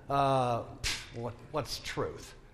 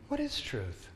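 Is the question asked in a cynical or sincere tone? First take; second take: cynical; sincere. First: It is asked in a cynical, dismissive tone. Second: It is asked in an earnest, sincere tone. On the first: The asker doubts that truth exists at all. "Or did he say it in a cynical" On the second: The asker genuinely wants to know the answer. "Do you think he said it, really"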